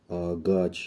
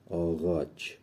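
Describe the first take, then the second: First: The middle consonant is a hard g sound. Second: The middle consonant is a soft gh sound. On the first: The speaker calls it wrong. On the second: The speaker calls it right.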